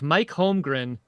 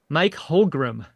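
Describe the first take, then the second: First: The surname ends in gren. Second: The surname ends in gram. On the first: The speaker calls it right. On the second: The speaker calls it wrong.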